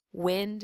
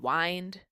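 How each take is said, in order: First: "Wind" with a short i, as in win; short vowel. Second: "wind" with a long i, as in wine; long vowel. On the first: Spanish teacher contrasting vowel sounds, "Wind" with short i. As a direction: say "Wind" to rhyme with pinned. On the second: Spanish teacher contrasting vowel sounds, "wind" with long i. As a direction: say "wind" to rhyme with kind. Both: Shown as a demonstration. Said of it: "It all depends on our vowel sounds".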